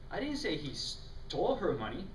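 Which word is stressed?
stole. The emphasis falls on the word stole.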